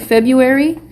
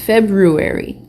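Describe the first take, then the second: First: The r after the b is dropped. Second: The r after the b is pronounced. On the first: The speaker calls it wrong. "Maybe I'm saying February" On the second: The speaker calls it right. "It's February"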